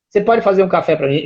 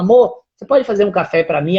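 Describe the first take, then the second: First: It is said in a grumpy, irritated tone. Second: It is said in a cheerful, warm tone.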